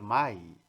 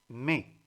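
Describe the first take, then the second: First: The vowel is said as the glide 'ai'. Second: The vowel is said as a plain 'e'. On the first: The speaker calls it wrong. "no vayan a decir mai" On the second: The speaker calls it right. "Es me"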